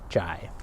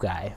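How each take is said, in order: First: It starts with a soft j sound. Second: It starts with a hard g sound. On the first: "try it with the soft sound after the E, I, and Y" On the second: "just say it with its hard sound"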